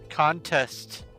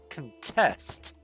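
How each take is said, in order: First: The stress is on the first syllable. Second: The stress is on the second syllable. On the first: It is used as a noun. "The emphasis is on the first syllable when it is a noun" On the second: It is used as a verb. "the vowels for the second syllable are the emphasis when it's a verb"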